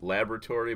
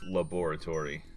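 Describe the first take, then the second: First: The word is said in a clipped, everyday way. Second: Every written syllable of the word is pronounced. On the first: This is how many people usually say it. "A lot of us pronounce it laboratory" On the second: This matches how the word is spelled. "but it is laboratory, if you spell it"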